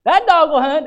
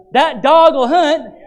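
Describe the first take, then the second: First: High, loud Southern churchgoer call at normal pace. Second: High, loud, slow Southern churchgoer drawl; Southern call-out. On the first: Southern churchgoer agreeing, quicker high loud Southern call. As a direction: toss it off quickly like a Southern amen. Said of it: "you'll hear that one". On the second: Southern churchgoer approving the sermon, slow high Southern call. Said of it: "You go down south". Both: Retold or imitated.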